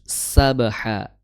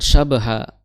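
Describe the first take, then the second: First: The word begins with an s sound. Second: The word begins with an sh sound. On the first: The speaker calls it right. "tapi sabaha" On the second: The speaker calls it wrong. "bukan syabaha"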